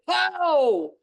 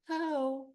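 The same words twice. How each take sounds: First: The word is shouted loudly and forcefully. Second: The word is said softly and gently. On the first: It is a clear firm command to stop. "I shouted" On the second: It is a mild request to stop. "Sometimes I gently say"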